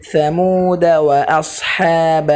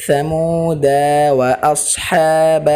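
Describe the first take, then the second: First: ثمود وأصحاب run together in one breath; correct joined reading. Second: ثمود cut off, then وأصحاب said apart; wrong split reading. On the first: Teacher showing students the joined reading. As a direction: join ثمود to وأصحاب with no break. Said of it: "আলিফটি রয়েছে এটি হলো আলিফে জায়দা". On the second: Teacher warning students off the broken reading. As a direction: break after ثمود as the wrong way. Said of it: "এভাবে কেউ বলবেন না।". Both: Shown as a demonstration.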